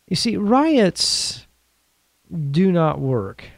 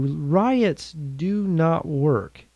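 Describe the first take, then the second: First: Drawn-out stress on riots, high then falling; each word spelled out slowly, riots pitched high; slow emphatic statement. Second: Riots do not work, very slow and softer, each word set apart; a hushed, weighty restatement; quiet slow repeat. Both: Real, not acted. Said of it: "I want to emphasize that to you".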